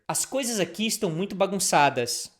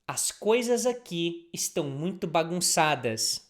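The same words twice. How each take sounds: First: It is said a little faster. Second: It is said at a normal pace.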